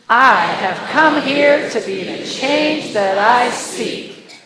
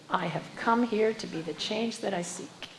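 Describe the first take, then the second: First: It is said in a sassy tone. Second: It is said in a plain, earnest tone.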